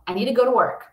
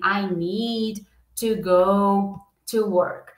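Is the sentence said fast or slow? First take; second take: fast; slow. First: The sentence is said quickly, words run together. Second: The sentence is said slowly, word by word. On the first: Native speakers usually say it this way. "Geralmente eles falam, ... Fica muito rápido" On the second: Native speakers rarely say it this way. "Dificilmente você vai ver um americano, né? Falando assim"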